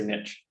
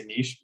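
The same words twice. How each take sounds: First: NICHE as "nitch"; anglicized niche. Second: NICHE as "neesh"; French niche. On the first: Co-host shows what people here say, short I. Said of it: "typically people here say niche". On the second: Co-host explains French influence, long EE. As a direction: say NICHE to rhyme with "leash". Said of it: "'cause we have French influence". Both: Shown as a demonstration.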